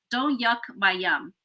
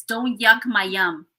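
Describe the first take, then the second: First: "Don't yuck my yum" drawn out slowly, "don't" leading; slow motto. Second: "Don't yuck my yum" said slowly, leaning on "yuck"; slow saying. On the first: Summing up her life motto to the group, slow and deliberate. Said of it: "I just took that for life". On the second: Sharing her favourite saying, slow with stress on "yuck". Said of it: "I have this saying". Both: Shown as a demonstration.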